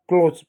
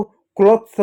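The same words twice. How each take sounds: First: क्लोथ्स as "kloz"; one syllable क्लोथ्स, long o and z; correct pronunciation. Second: क्लॉथ्स with the th kept before s; "kloth-s", cluster sounded in क्लॉथ्स; wrong pronunciation. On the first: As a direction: drop the th in क्लोथ्स. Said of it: "क्लोथ्स पढ़ते हैं". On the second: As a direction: say क्लॉथ्स as "klot-suh". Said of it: "नहीं पढ़ते हैं". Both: Shown as a demonstration.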